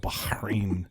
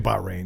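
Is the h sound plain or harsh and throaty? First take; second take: throaty; plain. First: The h sound is harsh and throaty. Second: The h sound is plain and soft. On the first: The speaker calls it right. "it's clashing vowels. You got to go Bahrain" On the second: The speaker calls it wrong. "you can't just say Bahrain"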